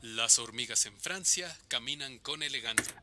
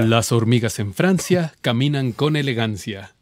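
First: Only the thin, hissy s sounds are heard. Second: The full voice is heard with softened s sounds. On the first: "nada más el lado que detecta" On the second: "el de-esser quita eses"

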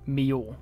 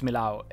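First: The name is said without an L sound. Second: The name is said with a clear L sound. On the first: The speaker calls it right. "it's pronounced Mio" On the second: The speaker calls it wrong. "it's not pronounced Millau"

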